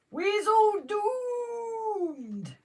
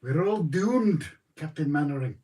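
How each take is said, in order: First: Long, high, drawn-out doom wail; Dad's Army doom wail. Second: Put-on Scottish accent. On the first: Retold or imitated. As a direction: stretch it out like Private Frazer. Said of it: "That's what Jason said". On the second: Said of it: "I can't do the accent".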